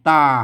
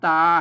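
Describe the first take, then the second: First: The syllable is said with a low tone. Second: The syllable is said with a mid tone. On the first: "เสียงเอกใส่ไม่เอก" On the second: "เสียงสามัญ"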